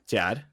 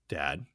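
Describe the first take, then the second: First: It is said in a put-on young girl's voice. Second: It is said in his ordinary adult voice. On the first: The speaker calls it right. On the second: The speaker calls it wrong.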